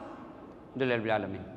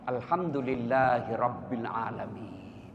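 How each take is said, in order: First: The phrase is rushed out very quickly. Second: The phrase is said slowly and carefully. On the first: The thanks leaves no lasting mark. The speaker calls it wrong. "Terlalu cepat" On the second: The thanks is sincere and leaves a mark. The speaker calls it right. "ucapkan dengan bagus, usap-usap dada"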